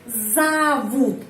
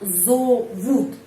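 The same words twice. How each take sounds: First: The first vowel is reduced to an 'a' sound. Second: The first vowel is a full 'o' sound. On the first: The speaker calls it right. "Di sini huruf O tapi bacanya A" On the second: The speaker calls it wrong. "bukan зовут"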